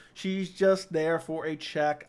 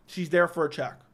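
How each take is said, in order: First: Slow, leaning on just; stress on just. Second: Said in the usual way. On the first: Real, not acted. Dismissing the fighter, stressing just. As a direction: drag out She's just there for a check. Restates check line slowly.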